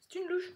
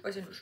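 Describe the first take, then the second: First: LOUCHE lifted high as a question; high, puzzled self-check; questioning herself. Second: Said in the usual way. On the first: Real, not acted. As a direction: ask it doubtfully, pitch jumping up on louche. Doubts herself, then answers.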